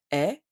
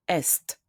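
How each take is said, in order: First: "est" as a bare open E vowel; silent S and T. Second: "est" with both S and T heard; consonants sounded. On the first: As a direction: drop both consonants of "est", leaving "eh". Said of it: "I don't pronounce the S and T". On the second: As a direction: pronounce every letter of "est", like English "best" without B. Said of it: "pronounced differently". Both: Shown as a demonstration.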